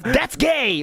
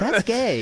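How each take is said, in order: First: It is said in an aggressive, forceful way. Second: It is said in a soft, gentle way. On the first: "So like aggressive" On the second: "or like soft"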